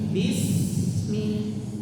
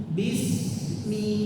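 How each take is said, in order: No difference in how they are said.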